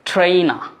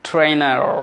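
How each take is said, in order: First: The final r sound is silent. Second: The final r sound is clearly pronounced. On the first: "British অ্যাকসেন্টে" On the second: "American accent"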